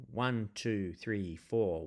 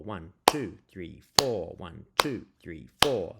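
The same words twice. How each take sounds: First: Said in the usual way. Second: "two" and "four" hit louder than "one" and "three"; backbeat stress. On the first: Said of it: "you'll hear it if I count it". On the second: Shown as a demonstration. Teacher counts the rock and roll backbeat, leaning on two and four. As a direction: lean on "two" and "four" each time. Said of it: "emphasize the backbeat, uh, which is beats two, and four".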